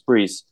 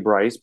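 First: The vowel sounds like 'ee'. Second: The vowel sounds like 'eye'. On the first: The speaker calls it right. "no, it's Brees" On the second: The speaker calls it wrong. "they would always say Bryce"

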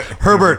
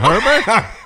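First: The voice falls at the end of the name. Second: The voice rises at the end of the name. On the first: The name is announced as a statement. "It's like" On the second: The name is said as a doubtful question. "the second Herbert would have sounded like a question"

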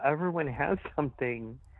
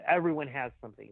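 First: It sounds sympathetic and sincere. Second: It sounds dismissive and offhand. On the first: Everyone suffers and deserves comfort and understanding. The speaker calls it right. "I'm not saying it that way. I'm saying, like, yeah" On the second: The suffering is ordinary and not worth dwelling on. The speaker calls it wrong. "it's not like, oh, we all go through that. It's just part of growing up"

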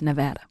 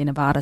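First: Nevada is pronounced the standard, local way. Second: Nevada is pronounced with a Boston-style vowel. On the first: The speaker calls it right. "but it's Nevada" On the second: The speaker calls it wrong. "I think it's a Boston thing. We say Nevada sometimes"

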